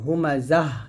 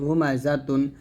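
First: The word ends with a soft 'h' sound. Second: The word ends with a 'tun' sound. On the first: The reader stops at this word. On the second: The reader continues without stopping.

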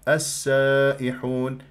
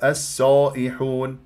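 First: The long a stays open and thin. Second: The long a is tilted toward e. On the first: The speaker calls it right. "لا" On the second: The speaker calls it wrong. "بعض اللهجات ... يقولون"

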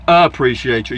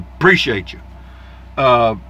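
First: It is said in a standard, general accent. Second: It is said in an East Texas accent. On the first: The speaker calls it wrong. "You don't say appreciate you" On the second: The speaker calls it right. "that's the way you say it in East Texas"

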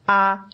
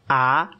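First: The pitch stays high and level. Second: The pitch rises from middle to high.

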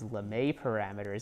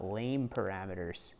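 First: The name is said with two syllables. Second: The name is said as one syllable. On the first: The speaker learned the term in a class. The speaker calls it right. "you know to call those Lemma parameters" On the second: The speaker only read the term in a book. The speaker calls it wrong. "and not Lame parameters"

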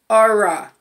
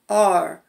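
First: It ends with an extra vowel after R. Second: It ends cleanly on the R sound. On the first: The speaker calls it wrong. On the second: The speaker calls it right.

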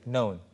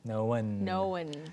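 First: The vowel is short, sounding like one syllable. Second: The vowel is drawn out like two syllables. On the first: This is the familiar, non-Australian pronunciation. "메간 선생님 발음으로 제가 익숙한 발음도 하나 이름절이에요" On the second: This is a typical Australian pronunciation. "모음이 하나 더 있는 것처럼. ... 호주 발음의 특유의 특성인 것 같고요"

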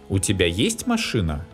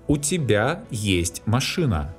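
First: It is said with question intonation. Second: It is said with statement intonation.

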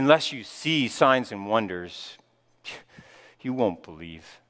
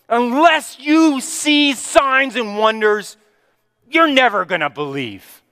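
First: It sounds sighing and sorrowful, like a lament. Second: It sounds like a rebuke, with a raised voice.

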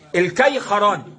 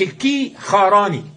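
First: The first syllable is an open 'kay' diphthong. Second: The first syllable lacks the open 'kay' diphthong. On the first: The speaker calls it right. "بنصب الكافي وإسكان الياء" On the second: The speaker calls it wrong. "مش الكي خراني"

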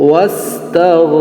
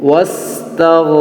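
The two takes are said the same way.

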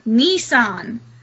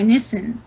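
First: The first vowel sounds like a long 'ee'. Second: The first vowel is a short 'i' sound. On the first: The speaker calls it wrong. "Nissan sounds like there's an E in there" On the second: The speaker calls it right. "Nissan is an I"

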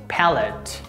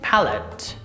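First: It is said with British pronunciation. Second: The same.

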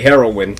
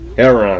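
First: The word is said with a standard pronunciation. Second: The word is said with a Southern pronunciation. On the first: This is how outsiders say it properly. "All proper like y'all do" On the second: This is how people from the South say it. "I'm from the South, that's how we say it"

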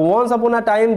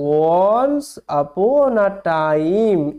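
First: It is read quickly and smoothly, without breaks. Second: It is read slowly, word by word, with breaks. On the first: This is the fluent reading people expect right away. "অনেকে ভাবে কি যে উচ্চারণ করা শেখা মানেই আমি এরম ভাবে পড়তে পারবো" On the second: This is how reading sounds before practice builds fluency. "যখনই আমি উচ্চারণ শিখলাম তখন আমি এই রকম ভাবে পড়তে পারবো"

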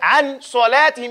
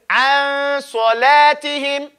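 First: The n sound is pronounced fully and clearly. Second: The n sound is faded into the s. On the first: The speaker calls it wrong. "you wouldn't say an salatihim" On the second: The speaker calls it right. "You say an salatihim. You see, you fade in it"

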